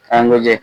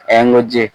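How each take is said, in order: Both takes have the same delivery.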